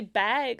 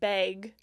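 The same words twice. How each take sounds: First: The vowel is said plainly, without exaggeration. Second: The vowel is exaggerated, like a northern accent. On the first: "I say bag" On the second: "I'm gonna over exaggerate, like bag, like how they say it, like up in like Canada"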